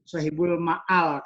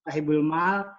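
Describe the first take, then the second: First: A glottal catch splits the last vowel in two. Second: The last vowel is one smooth, long sound. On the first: The speaker calls it wrong. "ada yang salah baca shahibul ma'al" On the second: The speaker calls it right. "meskipun benar shahibul mal"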